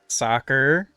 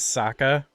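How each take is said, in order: First: The final r sound is pronounced. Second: The final r sound is dropped.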